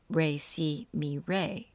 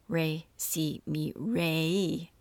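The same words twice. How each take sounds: First: The final vowel is short. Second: The final vowel is lengthened. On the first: It means brother. "re is brother" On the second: It means sister. "You feminize it by adding a long vowel sign on the end"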